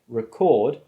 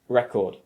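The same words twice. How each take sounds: First: The stress is on the second syllable. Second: The stress is on the first syllable. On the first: It is a verb meaning to store sound. "if you move the stress to the second syllable" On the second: It is a noun naming a music disc. "if you put the stress on the first syllable, you turn it into a noun"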